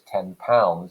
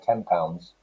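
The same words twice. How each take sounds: First: The word ten ends with a clear n sound. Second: The word ten ends with an m sound.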